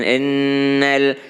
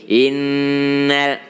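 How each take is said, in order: First: The first vowel sounds like e. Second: The first vowel sounds like i. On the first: The speaker calls it wrong. "jangan ennal" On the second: The speaker calls it right. "tapi i, innal"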